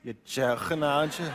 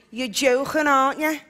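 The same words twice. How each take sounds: First: Imitating Scouse. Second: Liverpool lilt, "joking" with a throaty k; Scouse, rasp the k in "joking"; Scouse accent. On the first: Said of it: "that's very good". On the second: Shown as a demonstration.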